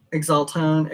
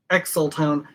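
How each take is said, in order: First: Exaltone said as ig-ZAHL-tone; trying a pronunciation. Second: Exaltone said as ex-sul-tone; trying a pronunciation. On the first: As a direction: Exaltone with a g-z and an open second vowel. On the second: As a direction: Exaltone with an x and a flat first vowel. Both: Shown as a demonstration. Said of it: "tries the name several ways".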